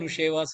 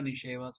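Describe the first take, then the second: First: The first syllable has a u vowel. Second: The first syllable has an i vowel. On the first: The speaker calls it wrong. "எதுக்கு நுஷி நுஷேவா நுஷேவா சொல்றேன்?" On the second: The speaker calls it right. "நிஷேவா நிஷேவா சொல்லுங்களேன்"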